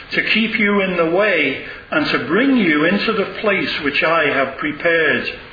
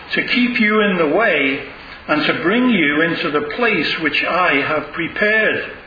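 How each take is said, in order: The two takes are said the same way.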